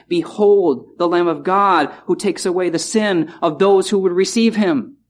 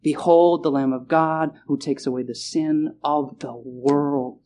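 First: Wrong wording read plainly; the wrong version, said straight; misquoted version. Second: Slow down and lay weight on "of the world"; the correct verse, said slowly and with weight; corrected reading. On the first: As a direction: read the misquote as if it were right. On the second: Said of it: "put the right emphasis on the right word". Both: Shown as a demonstration.

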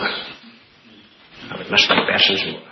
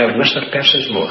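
First: Very slow and low, almost whispered; hushed, heartfelt. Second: Said in the usual way. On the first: Real, not acted. Preacher confiding his love for men in Scotland, hushed. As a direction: sink into a soft, drawn-out near-whisper.

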